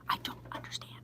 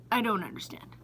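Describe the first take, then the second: First: Hushed, voiceless disbelief; baffled whisper. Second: Said in the usual way. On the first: Real, not acted. Baffled store worker to viewers, whispering. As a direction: whisper it as if at a total loss.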